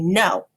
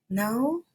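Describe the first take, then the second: First: It is said with excitement and energy. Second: It is said with a rise, like a question. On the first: It is an excited statement. "that I am making a excited statement" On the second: It asks a question. "that I'm asking a question"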